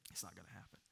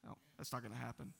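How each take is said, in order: First: Hushed whisper, much softer; whispered echo. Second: Said in the usual way. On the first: Shown as a demonstration. Pastor reassuring the congregation in a whisper. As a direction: drop to a whisper to echo the promise. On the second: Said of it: "It's not gonna happen (repeated)".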